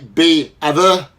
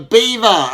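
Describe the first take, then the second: First: The e and a are split into two vowels. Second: The ea is said as one vowel sound. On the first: The speaker calls it wrong. "we don't say be other. That doesn't sound right" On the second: The speaker calls it right. "E A is a vowel team"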